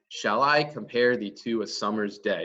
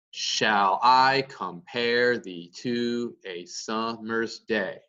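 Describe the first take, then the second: First: Quicker, connected rhythm on "Shall I compare thee to a summer's day"; up and down beat. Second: Slow, stressing every second syllable: shall I, comPARE; exaggerated beat. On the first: Teacher repeating the line for the beat, flowing up and down rhythm. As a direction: run the line along with I, -PARE and SUM- lightly stressed. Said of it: "an up and down beat".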